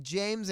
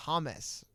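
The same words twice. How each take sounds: First: Said in the usual way. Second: "James" said as HAH-mess; Spanish-style "James", HAH-mess; Spanish pronunciation. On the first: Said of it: "spelled James in English". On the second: Shown as a demonstration. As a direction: say "James" with an H and two syllables. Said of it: "but they pronounced it James".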